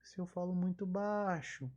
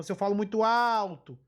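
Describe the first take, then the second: First: Softer, lowered-volume demo; voz baixa. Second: Falando bem alto, projetando a voz; louder demo of a loud voice; voz alta. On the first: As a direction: falar baixo, com menos força na voz. (falando bem baixinho) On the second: (falando muito alto) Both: Shown as a demonstration.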